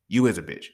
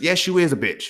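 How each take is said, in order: First: YOU hit first, rest lower and falling; stress on you. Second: IS pushed up hard and falling; stress on is. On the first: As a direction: lean on "You" in "You is a bitch". Repeats, now leaning on you. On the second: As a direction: lean on "is" in "you is a bitch". Insisting, hitting the word is. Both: Acted.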